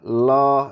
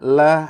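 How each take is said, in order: First: The L is heavy and thick. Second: The L is light and thin. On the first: The speaker calls it wrong. "nggak usah lo ya" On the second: The speaker calls it right. "jangan lo tapi bismillah"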